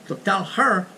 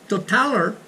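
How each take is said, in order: Both takes have the same delivery.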